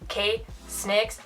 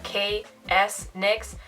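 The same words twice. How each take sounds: First: The S is blended straight into nix. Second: The S is said as a separate letter. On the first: The speaker calls it right. "K-Snix with an extra S" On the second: The speaker calls it wrong. "not K-S-Nix"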